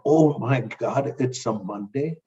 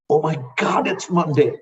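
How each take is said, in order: First: It sounds dreading and reluctant. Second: It sounds eager and excited.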